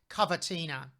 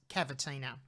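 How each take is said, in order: First: The word is said in an Italian accent. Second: The word is said in an Australian accent. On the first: "more correctly in Italian pronounced" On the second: "My Australian accent is"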